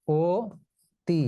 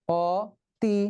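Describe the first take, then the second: First: "ও তি" in two parts, closed o then ti; actual pronunciation. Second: "অতি" in two parts, open aw then ti; as spelt. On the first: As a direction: sound out "ও", pause, then "তি". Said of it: "আমরা এটাকে উচ্চারণ করি কি". ("ও তি" ভেঙে, ও-ধ্বনি দিয়ে) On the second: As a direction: sound out "অতি" with aw, not o. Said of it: "কিন্তু না, আমরা এটাকে". ("অতি" ভেঙে, খোলা অ দিয়ে) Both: Shown as a demonstration.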